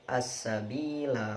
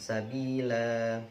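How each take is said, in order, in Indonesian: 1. Vokal akhir dibaca pendek. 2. Vokal akhir dibaca panjang. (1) "wasal, lanya dibaca pendek" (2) "Jika dibaca waqaf, lanya dibaca panjang"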